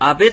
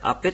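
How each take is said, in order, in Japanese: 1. 真ん中の子音は有声の「b」の音です。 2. 真ん中の子音は無声の「p」の音です。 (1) "アベというふうに濁って発音されるときも時々ありますが" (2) "アペと、発音します"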